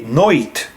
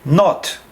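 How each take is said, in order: First: The vowel is an oi diphthong. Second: The vowel is a plain, short o sound. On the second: "We say not"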